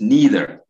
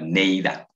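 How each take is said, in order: First: "neither" as NEE-ther, loud and clear; correct English pronunciation. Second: "neither" as NAY-tha, Ateso-style reading; mispronounced neither. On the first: Shown as a demonstration. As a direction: model "neither" with a long "ee" first vowel. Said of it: "emphasis on one, pronunciation". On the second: Retold or imitated. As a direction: say "neither" with an "ay" first vowel and open ending. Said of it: "looks like you are reading in Ateso".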